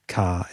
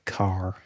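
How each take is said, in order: First: It is said in an Australian accent. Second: It is said in an American accent. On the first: "they'll still say car" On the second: "instead of car"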